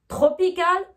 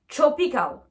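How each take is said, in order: First: TROPICAL with hard T and French R; French-accented TR. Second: TROPICAL as "chropical". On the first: Teacher contrasting the two, TROPICAL with French TR. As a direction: sound both T and R in TROPICAL. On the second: Teacher contrasting the two, TROPICAL with ch. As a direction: begin TROPICAL with ch, faint R. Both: Shown as a demonstration. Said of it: "la différence entre les deux".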